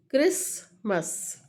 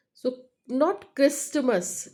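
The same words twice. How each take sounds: First: Christmas with the T dropped; right way. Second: Christmas said with a clear T; wrong way. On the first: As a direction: say "Christmas" as krismas, no T. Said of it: "Deletion of second sound T". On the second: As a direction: pronounce the T in "Christmas" on purpose, slowly. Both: Shown as a demonstration.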